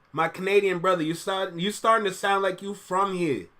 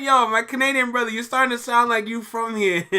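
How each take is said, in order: First: Said in the usual way. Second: Higher, amused reread through laughter; giggly second reading; laughing reread. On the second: Shown as a demonstration. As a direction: read it again, tickled by it. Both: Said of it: "Let me read that again".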